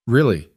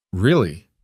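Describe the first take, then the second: First: REALLY said firmly as an answer; assured REALLY, settling the doubt; firm confirmation. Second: Small, tentative REALLY as a question; unsure REALLY, seeking the truth; doubting question. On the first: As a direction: affirm REALLY, pitched a little up. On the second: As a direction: ask REALLY searchingly, held back. Boy asks, searching for lie. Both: A narrator's reading.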